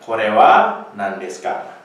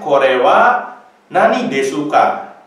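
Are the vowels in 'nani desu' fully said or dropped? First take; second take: dropped; fully said. First: The vowels are dropped, giving nan and deska. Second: Every vowel is fully pronounced, including desu's u. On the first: The speaker calls it right. "tapi kita bilangnya korewa nandeska" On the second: The speaker calls it wrong. "dia tidak diucapkan korewa nani desuka"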